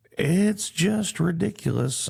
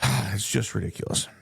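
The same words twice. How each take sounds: First: Slow, high, incredulous outburst; drawn-out exasperated "It's just ridiculous"; exasperated disbelief. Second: Sighing, resigned repeat; a resigned sigh before "it's just ridiculous"; weary sigh. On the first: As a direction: spell out how absurd it is. Exasperated rant about border hypocrisy. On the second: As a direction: let it fall out tired and defeated. Sighs, repeats the complaint resigned. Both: Real, not acted.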